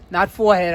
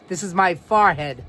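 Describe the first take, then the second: First: "forehead" said "FOR-head" with a rounded "or"; "forehead" as "FOR-head", laughing a little; other pronunciation. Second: "forehead" said "FAHR-head"; "forehead" with an open "ahr"; New York pronunciation. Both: Shown as a demonstration.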